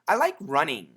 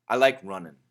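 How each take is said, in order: First: The ending is a full 'ing' sound. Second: The ending is a reduced 'un' sound. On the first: "The first pronunciation is ing, which is perfect" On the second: "if we say it really fast, it sounds like un"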